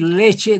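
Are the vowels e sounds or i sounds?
e sounds. Both vowels sound like e. "En lugar de decir leche"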